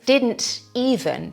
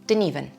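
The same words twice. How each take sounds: First: Every sound is pronounced carefully and fully. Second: It is said fast with some sounds dropped.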